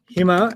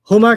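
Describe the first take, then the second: First: The first vowel is an ee sound. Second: The first vowel is an oo sound. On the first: "sound like hima" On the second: "Huma can sometimes sound like"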